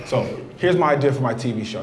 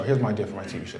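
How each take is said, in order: First: Said in the usual way. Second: Conspiratorial hush. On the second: Acted. Repeat said hushed.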